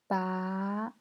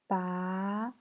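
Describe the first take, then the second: First: The pitch rises from middle to high. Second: The same.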